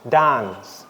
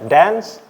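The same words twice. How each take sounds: First: It is said in a British accent. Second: It is said in an American accent.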